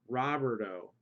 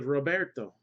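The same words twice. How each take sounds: First: The name is said with an English pronunciation. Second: The name is said with a Spanish pronunciation. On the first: The speaker calls it wrong. "you wouldn't say Roberto" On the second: The speaker calls it right. "you would say Roberto in Spanish"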